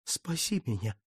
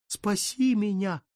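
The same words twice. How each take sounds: First: «Спаси меня» moaned low and soft; soft plaintive moan. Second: «Спаси меня» wailed high and slow; high plaintive wail. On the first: Count begs the Virgin, «Спаси меня» moaned softly. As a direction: breathe «Спаси меня» as a quiet plea. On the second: Count cries out to the Virgin, «Спаси меня» wailed high and slow. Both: Acted. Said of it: "жалобно простонал он".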